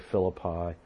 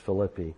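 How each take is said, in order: First: It is said the common English way. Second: It is said the Greek way. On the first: "Some say Philippi" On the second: "the Greek pronunciation is Philippi"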